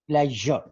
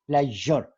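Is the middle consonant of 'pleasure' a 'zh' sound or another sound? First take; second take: zh sound; zh sound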